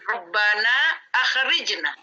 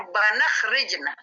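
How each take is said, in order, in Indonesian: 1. Hamza dibaca dengan hentian glotal yang jelas. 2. Hamza dihilangkan dan kedua kata menyambung.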